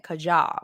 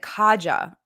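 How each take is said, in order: First: The stress is on the second syllable. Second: The stress is on the first syllable. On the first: This is how the speaker says it. "but I'm pronouncing it Kaja" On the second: This is how most people say it. "Most people pronounce it Kaja, emphasis on the first pronoun syllable"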